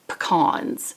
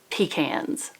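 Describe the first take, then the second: First: It does not sound like 'peas in a can'. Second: It sounds like 'peas in a can'. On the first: This is how the speaker normally says it. "I say pecans" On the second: This is how the speaker thinks it should be said. "like peas in a can"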